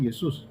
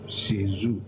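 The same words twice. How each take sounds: First: It is said with a Spanish pronunciation. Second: It is said with a French pronunciation. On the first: "imagine the Spanish" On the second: "the French will call him"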